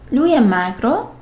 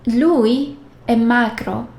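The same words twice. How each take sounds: First: It is said with question intonation. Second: It is said with statement intonation. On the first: Asks whether he is thin. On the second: He is thin.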